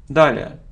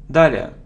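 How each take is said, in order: No difference in how they are said.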